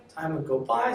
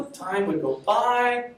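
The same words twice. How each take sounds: First: Said in the usual way. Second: Time would go by stretched slowly and louder, higher; drawn out. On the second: Shown as a demonstration. Teacher tells the class time passed, slowed and drawn.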